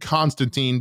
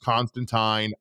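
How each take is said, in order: First: The name is said the American way. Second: The name is said the non-American way. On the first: This is the speaker's own usual pronunciation. "we are saying Constantine because we're Americans. That's how we say it in America" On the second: This is the pronunciation others insist on. "no, it's pronounced Constantine"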